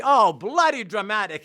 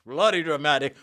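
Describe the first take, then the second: First: Said in the usual way. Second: Lower-pitched retelling of the colleague's gripe; a mildly deeper mock complaint. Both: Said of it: "they had a deeper voice".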